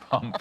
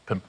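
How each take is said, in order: First: The vowel sounds like the 'u' in 'cup'. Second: The vowel sounds like the 'i' in 'pin'. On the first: The speaker calls it wrong. "pump sounded more fun when I was reading it out" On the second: The speaker calls it right. "Pimp is really how one pronounces it"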